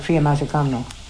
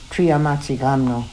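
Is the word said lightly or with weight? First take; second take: lightly; with weight. First: The word is said lightly and carelessly. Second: The word is said deliberately, with weight. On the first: The word is not given proper respect. The speaker calls it wrong. "not read words like Triamatsikamno, like that" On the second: The word is given proper respect. The speaker calls it right. "They would really read Triamatsikamno"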